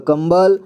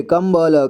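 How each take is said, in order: First: Said in the usual way. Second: कंबल slowly split as "kam-ba-la"; कंबल with final ल voiced as "la"; sounded out. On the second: Shown as a demonstration. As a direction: spell out कंबल piece by piece. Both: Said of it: "और इसे".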